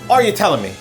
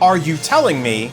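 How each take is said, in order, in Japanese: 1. 単語はつなげます。'telling'のGは落とします。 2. 単語は区切ります。'telling'のGは発音します。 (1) "bunched together and linked. As well, the G sound in telling gets dropped" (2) "it doesn't sound like"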